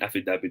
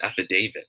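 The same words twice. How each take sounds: First: The third syllable has a short vowel. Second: The third syllable has a long 'ay' vowel. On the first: The speaker calls it wrong. "dito sa atin, sabi natin affidavit of loss" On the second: The speaker calls it right. "Yung da will be pronounced as day, long A"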